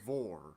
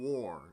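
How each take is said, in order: First: The word begins with a buzzing V sound. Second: The word begins with a rounded W sound. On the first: The speaker calls it wrong. "It sounds like you're saying vor" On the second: The speaker calls it right. "it doesn't sound like you're saying war"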